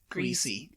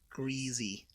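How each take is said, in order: First: The middle consonant is a hissing s sound. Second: The middle consonant is a buzzing z sound. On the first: This is how the speaker has always said it. "I've always said greasy" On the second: This is how the speaker's mother says it. "she says it with like a Z sound"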